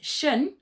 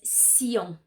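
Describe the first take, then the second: First: The ending is a single sh-sound syllable, shun. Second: The ending starts with s and a y glide. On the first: This is how the letters sound in English. "in English says shun" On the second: This is how the letters sound in French. "in French it says sillon"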